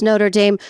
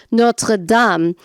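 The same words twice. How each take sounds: First: Said in the usual way. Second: Notre Dame the French way, "NOH-truh DAHM"; French pronunciation. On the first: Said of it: "you did pronounce Notre Dame". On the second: Retold or imitated. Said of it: "I do a terrible French accent".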